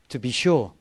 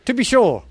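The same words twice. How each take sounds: First: Said in the usual way. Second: Higher, louder attempt at an Irish accent. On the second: Shown as a demonstration. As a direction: go for a playful Irish accent, up high. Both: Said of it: "I wish I could do an Irish accent".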